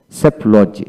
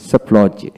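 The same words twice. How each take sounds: The two takes are said the same way.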